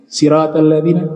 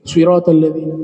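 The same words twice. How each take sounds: First: Sirat starts with a plain s sound. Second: Sirat starts with an emphatic, heavy s sound. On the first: This follows one accepted reading tradition. "pakai sin" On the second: This follows another accepted reading tradition. "pakai shad"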